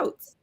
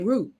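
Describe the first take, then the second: First: It is said the Northern Virginia way. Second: It is said the Philadelphia way.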